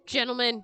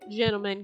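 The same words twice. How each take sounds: First: It is said in the normal voice. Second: It is said in a lower voice.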